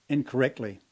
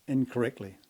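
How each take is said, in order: The two takes are said the same way.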